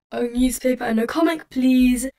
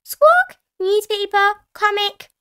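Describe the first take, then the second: First: Character voice near the narrator's own, louder on "please"; Grandad Dog and Danny Dog. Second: High, loud parrot squawk; Polly Parrot. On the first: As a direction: put in a polite order as the dogs. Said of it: "Grandad Dog and Danny Dog said". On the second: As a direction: repeat it back as a squawking parrot. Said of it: "Polly Parrot copied". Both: A narrator's reading.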